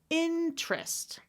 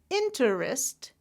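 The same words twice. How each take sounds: First: It is said with two syllables. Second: It is said with three syllables.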